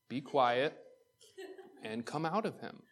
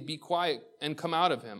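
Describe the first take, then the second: First: It is said very slowly. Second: It is said at a normal speed.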